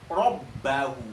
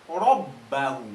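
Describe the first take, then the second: Both takes have the same delivery.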